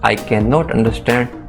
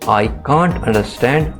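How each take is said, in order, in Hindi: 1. क्रिया पूरी तरह बोली जाती है, 'can not'। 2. क्रिया एक शब्दांश में छोटी हो जाती है, 'can't'।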